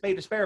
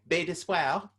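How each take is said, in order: First: It is said with a Newfoundland English pronunciation. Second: It is said with a French-style pronunciation. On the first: "in Newfoundland English, it's, it's Bay d'Espoir" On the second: "when they started saying Bay d'Espoir"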